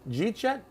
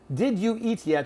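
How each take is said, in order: First: The first words blur together into one syllable. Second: Each word is said separately and fully.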